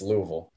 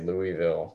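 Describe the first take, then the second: First: The name is squeezed into very few syllables. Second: The name is said with all its syllables. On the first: The speaker calls it right. "put it in as little amount of syllables as you can" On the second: The speaker calls it wrong. "that's how I would say it"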